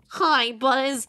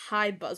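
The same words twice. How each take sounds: First: It is said in an imitation of Rex. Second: It is said in his normal voice.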